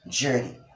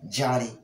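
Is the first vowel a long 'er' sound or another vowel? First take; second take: long er; another vowel. First: The first vowel is a long 'er' sound. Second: The first vowel is not a long 'er' sound. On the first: The speaker calls it right. "The correct pronunciation of the word is journey" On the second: The speaker calls it wrong. "not Johnny or Johnny, as we are often mispronounced the word"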